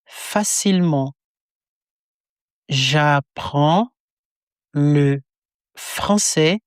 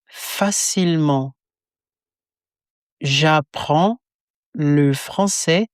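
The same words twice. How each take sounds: The two takes are said the same way.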